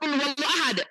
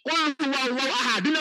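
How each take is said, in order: First: The phrase ends with a consonant. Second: The phrase ends with a vowel. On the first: The reader stops here. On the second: The reader continues without stopping.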